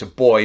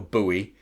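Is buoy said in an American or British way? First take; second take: British; American. First: It is said the British way, like boy. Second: It is said the American way, like boo-ee.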